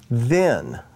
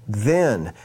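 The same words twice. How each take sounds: First: Said in the usual way. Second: "then" set apart after a pause, falling firmly; stress on then. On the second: Shown as a demonstration. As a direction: lean on the word "then" and let it fall. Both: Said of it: "I want to emphasize that word".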